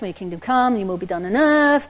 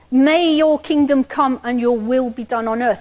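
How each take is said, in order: First: It is said mechanically, as a rote recitation. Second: It is said forcefully, as a bold declaration.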